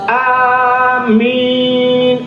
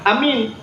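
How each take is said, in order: First: The vowels are drawn out long. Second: The vowels are said short. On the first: It asks that the prayer be accepted. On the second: It means trustworthy.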